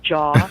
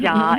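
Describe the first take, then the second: First: Said in the usual way. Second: "ja" said with a short flat Chicago "a" and no "aw" sound. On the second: Shown as a demonstration. Chicagoan shows the way she used to say "jaw": Chicago "ja". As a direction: say "ja" the old Chicago way, with an open "a". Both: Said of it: "instead of".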